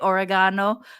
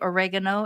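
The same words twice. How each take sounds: First: The word is said with a British pronunciation. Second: The word is said with an American pronunciation. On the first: "as the Brits would say" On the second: "as the Americans would say"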